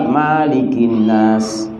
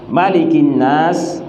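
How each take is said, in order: First: The first vowel of Malik is held long. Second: The first vowel of Malik is kept short. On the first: "tapi juga bisa dibaca panjang" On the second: "Kalau dalam surah An-Nas pendek"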